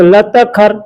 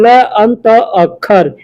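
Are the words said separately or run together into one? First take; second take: run together; separately. First: The words are merged into a single word. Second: The three words are said as separate words.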